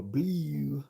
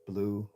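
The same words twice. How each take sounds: First: "blue" as "bleeew", fronted glide, pitched up; exaggerated Baltimore "blue", louder; mock the local vowel in "blue". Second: Said in the usual way. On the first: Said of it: "I don't say". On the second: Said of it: "I say".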